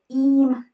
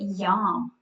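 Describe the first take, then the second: First: The word starts directly with a vowel. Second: The word starts with a Y sound. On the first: The speaker calls it wrong. "Is it eam? No" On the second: The speaker calls it right. "So it's this y sound"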